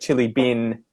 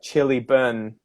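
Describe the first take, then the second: First: The vowel in 'bin' sounds like 'in'. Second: The vowel in 'bin' sounds like 'un'. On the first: This is the Australian way of saying it. "instead of chili bin" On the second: This is the New Zealand way of saying it. "Instead of saying in, they would say un"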